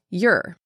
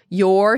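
First: The word is said in a weak, reduced form. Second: The word is said in its full form. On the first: "sounds like your" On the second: "your sounds like"

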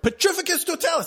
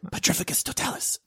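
First: It is spoken aloud in a normal voice. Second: It is spoken in a quiet whisper. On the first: The caster is not hiding. "instead of like" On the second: The caster is sneaking in stealth. "your dude whispers it"

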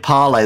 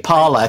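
First: The name is pronounced the French way. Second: The name is pronounced the American way. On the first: The speaker calls it wrong. "You can't say Parler, that's French" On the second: The speaker calls it right. "It's got to be Parler because that's American"

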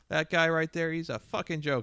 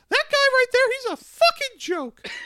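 First: It is said in a plain, ordinary voice. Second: It is said in a high Mickey Mouse voice.

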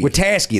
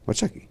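First: The name rhymes with Pulaski. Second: The name does not rhyme with Pulaski. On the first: The speaker calls it right. "Witaske, that's it. Yeah. Like Pulaski" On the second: The speaker calls it wrong. "You didn't that time"

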